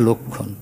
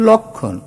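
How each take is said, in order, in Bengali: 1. প্রথম স্বরধ্বনিটি একটি বদ্ধ 'o' ধ্বনি। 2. প্রথম স্বরধ্বনিটি একটি খোলা 'aw' ধ্বনি। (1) "ক্ষীয় থাকলে আমরা জানি আগের অ ওকারান্ত হয়" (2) "ম ফলাযুক্ত থাকলে তার আগের অ কোথাও কোথাও অকারান্ত উচ্চারিত হয়"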